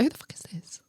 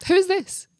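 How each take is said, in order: First: Hushed, whispered disbelief; whispered reaction. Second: High-pitched, voiced incredulous question; suspicious demand. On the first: Retold or imitated. Reacting to a friend's odd message, whispered suspicion. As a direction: whisper it under your breath, suspicious. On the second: Questioning whoever sent the odd message, high incredulous demand. Repeats the suspicious reaction out loud.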